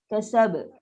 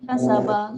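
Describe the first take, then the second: First: The word ends on a bouncing final consonant. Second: The word ends on a full final vowel. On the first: The speaker calls it right. "kita kena jelaskan bunyi sifat qalqalah tu" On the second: The speaker calls it wrong. "Tak boleh berhenti"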